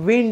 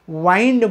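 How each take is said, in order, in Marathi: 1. हा स्वर लहान 'i' ध्वनी आहे. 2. हा स्वर दीर्घ 'eye' ध्वनी आहे. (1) "तुम्ही त्याला विंड म्हणा" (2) "वाइंड म्हणू नका"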